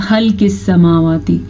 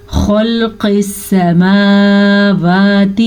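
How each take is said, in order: First: خلق with a thin, light خ; wrong thin kh. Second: خلق with a full, heavy خ. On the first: Teacher showing the wrong thin khaa in خلق. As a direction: read the خ of خلق thin, as a mistake. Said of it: "اگر میں اس کو باریک پڑھوں گی". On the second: Teacher demonstrating the heavy khaa in خلق. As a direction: read the خ of خلق thick and heavy. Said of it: "خوا کو ہم پر پڑھیں گے". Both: Shown as a demonstration.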